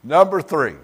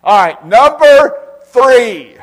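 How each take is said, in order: First: Said in the usual way. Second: Very high, loud, drawn out; booming announcement. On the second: Real, not acted. Preacher to congregation, booming drawn-out announcement. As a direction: call out the point like a herald.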